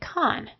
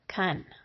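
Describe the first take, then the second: First: The vowel is a full, clear o sound. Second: The vowel is reduced to a weak uh sound. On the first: "When the accent is on that syllable, it will say con" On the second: "it will be mushed to an uh"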